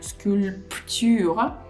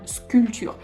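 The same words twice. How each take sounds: First: The P sound is pronounced in the middle. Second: The P sound is silent in the middle. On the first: The speaker calls it wrong. "I do not think you'll find sculpture" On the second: The speaker calls it right. "Instead, you'll find sculpture"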